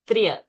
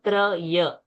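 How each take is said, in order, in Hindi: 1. 'Tr' बिना किसी स्वर के सीधे 'y' में मिल जाता है। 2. 'tr' और 'y' के बीच एक 'a' स्वर डाला जाता है। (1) "That Triya sound has to come" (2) "It's not Traya"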